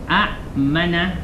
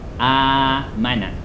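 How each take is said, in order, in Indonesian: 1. Hentian glotal mengikuti vokal pertama yang pendek. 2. Vokal pertama dipanjangkan tanpa hentian glotal. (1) "pada asal tulisan dia" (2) "dia jadi mad badal"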